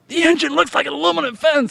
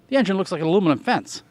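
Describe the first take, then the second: First: It is said in an admiring, enthusiastic tone. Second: It is said in a disapproving, critical tone. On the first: The engine's look is something to love. The speaker calls it right. "you're saying it wrong" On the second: The engine's look is a flaw. The speaker calls it wrong. "being critical"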